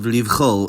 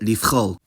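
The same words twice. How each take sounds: First: The fricative after 'li' is a voiced v. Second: The fricative after 'li' is a voiceless f. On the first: "any obstruent could affect the voicing" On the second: "sometimes said"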